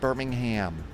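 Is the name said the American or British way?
American. The name is said the American way. The city in the US is meant. The speaker calls it wrong. "not Birmingham. Birmingham is in the U S"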